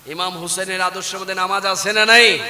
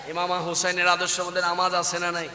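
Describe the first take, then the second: First: Insistent, projected question; firmer question. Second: Quiet, even question; subdued preacher's question; softly said. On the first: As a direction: press the congregation for an answer. Asks again after the soft take. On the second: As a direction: ask the congregation softly. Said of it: "আস্তে বলি, আস্তে বলি". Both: Real, not acted.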